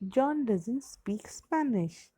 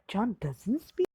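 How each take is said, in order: First: The voice falls at the end. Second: The voice rises at the end.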